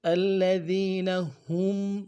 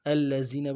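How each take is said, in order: First: الذین with soft th, slower; correct soft ذ. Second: الذین with z sound; wrong z for ذ. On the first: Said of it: "ذال کو باریک ادا کرنا چاہیے". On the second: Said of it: "زا کے مخرج سے پڑھتے ہیں". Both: Shown as a demonstration.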